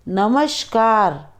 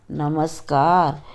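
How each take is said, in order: First: नमस्कार with sh, "namashkar"; wrong pronunciation. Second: नमस्कार with a clean s, "namaskar"; correct pronunciation. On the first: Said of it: "अशुद्ध उच्चारण अलग तरीके से होता है". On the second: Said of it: "शुद्ध उच्चारण अलग तरीके से होता है". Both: Shown as a demonstration.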